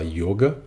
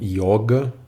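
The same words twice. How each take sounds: First: The first O is pronounced closed. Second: The first O is pronounced open. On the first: "pronúncia do O fechado" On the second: "Alguns falam yoga"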